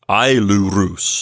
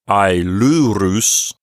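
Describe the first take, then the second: First: The stress is on the first syllable. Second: The stress is on the second syllable. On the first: The speaker calls it wrong. "not ailurus, not that" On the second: The speaker calls it right. "the accent move over one notch from the first syllable... over to the penult"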